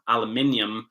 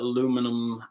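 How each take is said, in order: First: It is said the British way. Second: It is said the American way.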